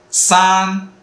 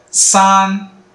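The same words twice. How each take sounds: The two takes are said the same way.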